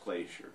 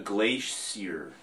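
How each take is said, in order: First: The word has an American pronunciation. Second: The word has a British pronunciation.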